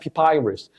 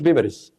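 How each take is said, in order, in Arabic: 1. المقطع الثاني فيه حرف 'eye'. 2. المقطع الثاني فيه حرف 'i' قصير. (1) "اسمها بيبايرس" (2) "ما اسمهاش بيبرس"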